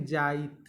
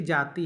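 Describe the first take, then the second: First: "जाइत" with the final i moved before the t; Nagpuri pronunciation. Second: Said in the usual way. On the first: Shown as a demonstration. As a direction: say jaa-it, ending on t: "जाइत". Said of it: "हम लोग क्या बोलेंगे". ("जाइत" में इ को त से पहले बोलें) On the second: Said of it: "देखिए जाति है".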